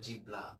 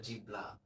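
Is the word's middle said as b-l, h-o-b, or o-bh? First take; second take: b-l; b-l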